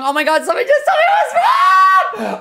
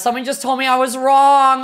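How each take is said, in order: First: High laughing shout of disbelief; shocked laughing shriek. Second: Said in the usual way. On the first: Real, not acted. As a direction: shriek it through a laugh, stunned. Just learned she guessed wrong.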